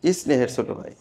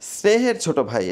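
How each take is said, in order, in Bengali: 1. s-এর আগে একটা অতিরিক্ত e স্বরধ্বনি আসে। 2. এটা সরাসরি s সাউন্ড দিয়ে শুরু হয়।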